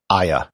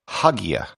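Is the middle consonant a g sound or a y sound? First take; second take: y sound; g sound. First: The middle consonant is a y sound. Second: The middle consonant is a hard g sound. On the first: The speaker calls it right. "This would be as if it were spelled A Y A" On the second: The speaker calls it wrong. "If you had no background and were just a standard English speaker, you might pronounce it"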